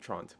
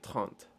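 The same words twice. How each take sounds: First: It is said with an American accent. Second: It is said with a French accent. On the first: The speaker calls it wrong. "with the American accent, it'd be like" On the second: The speaker calls it right. "but it would be"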